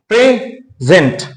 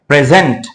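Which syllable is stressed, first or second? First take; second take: first; second. First: The stress is on the first syllable. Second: The stress is on the second syllable. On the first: It means being here. "Present जब adjective होता है" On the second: It means a gift. "अगर हम stress दूसरे syllable पर लाएं"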